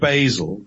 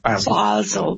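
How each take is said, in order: First: It is said with an American pronunciation. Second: It is said with a British pronunciation. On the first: "You have basil" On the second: "but we have basil"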